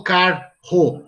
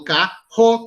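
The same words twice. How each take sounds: First: "carro" wrongly split as car-ro; both r's pronounced separately. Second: "carro" as ca-rro, one h-like r; single r sound. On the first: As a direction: sound each r in "carro": car, then ro. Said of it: "eu não falo carro". ("carro" separado errado, car-ro, com os dois erres) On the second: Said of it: "como se fosse um R só". ("carro" com um som só de erre, ca-rro) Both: Shown as a demonstration.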